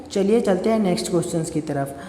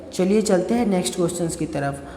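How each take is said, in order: Both takes have the same delivery.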